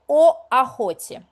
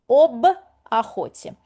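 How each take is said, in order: First: Two vowels meet with no consonant between them. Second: A b sound separates the two vowels. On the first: The speaker calls it wrong. "we can't say о охоте. It's hard for us" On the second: The speaker calls it right. "we dilute it with uh, consonant b"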